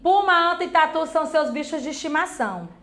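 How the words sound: It is said as a flat statement. The speaker is asserting a fact. The speaker calls it wrong. "eu não estou perguntando. É como se eu estivesse afirmando"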